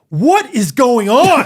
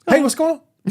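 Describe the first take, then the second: First: It sounds angry, with every word fully said. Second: It sounds casual, with consonants dropped and slurred.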